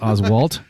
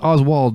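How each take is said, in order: First: The name ends with a T sound. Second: The name ends with a D sound. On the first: "the way that you wrote it here on the show plan" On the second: "I've always thought it was D"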